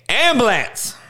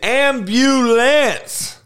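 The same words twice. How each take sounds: First: The middle 'you' sound is left out. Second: The middle 'you' sound is clearly said. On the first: The speaker calls it wrong. "It ain't ambulance" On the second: The speaker calls it right. "It is ambulance. Make sure you don't just fucking leave the you out"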